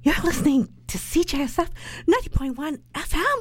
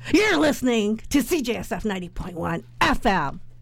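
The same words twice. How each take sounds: First: It is said in a surprised voice. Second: It is said in an angry voice.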